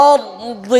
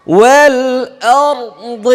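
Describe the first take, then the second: First: أرض said alone, softer and spoken, the ḍad heavy; isolated word. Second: Slow, high drawn-out chant of والأرض with a heavy ḍ; chanted word. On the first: Teacher isolates the tricky word for students, spoken softly. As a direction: pick out أرض quietly to show the ḍad. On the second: Teacher models the correct heavy ḍad, slow chant. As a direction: sing والأرض slowly, a heavy ḍad at the end. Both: Shown as a demonstration. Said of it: "এই যে এখানে অনেকে ভুল করছে".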